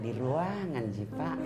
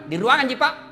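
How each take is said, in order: First: It is said in a soft, sweet, drawn-out voice. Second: It is said in a firm, plain, businesslike voice.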